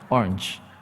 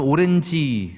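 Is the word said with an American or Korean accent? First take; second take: American; Korean. First: It ends with a light 'ch'-like sound. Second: It ends with a Korean 'ji' syllable. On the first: The speaker calls it right. "치 발음 살짝 들어가요" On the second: The speaker calls it wrong. "미국 가서 오렌지 그러면 잘 못 알아듣어요"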